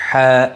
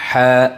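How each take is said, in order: No difference in how they are said.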